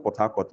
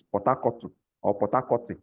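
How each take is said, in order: First: Said in the usual way. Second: "Port Harcourt" with the H dropped and a vowel added at the end; Ekpe pronunciation. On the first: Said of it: "it's not Port Harcourt". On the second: Shown as a demonstration. Teacher showing the class how Ekpe speakers adapt Port Harcourt, Ekpe pronunciation. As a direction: say "Port Harcourt" the Ekpe way, like "Pot-akotu" or "Pot-akoti". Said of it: "we use our intonation, our accent".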